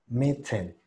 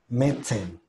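First: The middle consonant is a clear, strong T. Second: The same.

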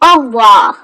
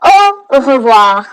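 First: It is said quickly and run together. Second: It is said carefully at a normal pace.

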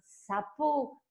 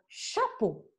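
First: The word starts with an 's' sound. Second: The word starts with an 'sh' sound. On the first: The speaker calls it wrong. "c'est mal prononcé" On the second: The speaker calls it right. "c'est un chapeau"

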